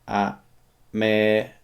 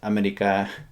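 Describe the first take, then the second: First: It is said at a normal pace. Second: It is said fast.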